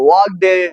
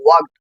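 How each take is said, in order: First: The -ed ending is said as an extra syllable. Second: The -ed ending adds no extra syllable. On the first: The speaker calls it wrong. "இந்த மாதிரிலாம் சொல்லாம" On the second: The speaker calls it right. "அந்த ஈடிங்கிறது silent ஆகணும்"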